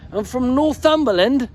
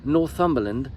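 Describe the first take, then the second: First: "Northumberland" in a high put-on British accent. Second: Said in the usual way. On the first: Shown as a demonstration. Vlogger trying out a British accent for his fan. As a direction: read "I'm from Northumberland" like a Brit. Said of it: "I should read it like this". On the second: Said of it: "I'll spell it out".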